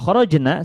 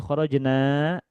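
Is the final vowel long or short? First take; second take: short; long. First: The final vowel is short. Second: The final vowel is drawn out long. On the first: The women went out. The speaker calls it right. "seperti ini teman-teman pendek" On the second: We went out. The speaker calls it wrong. "manjangkan huruf terakhirnya"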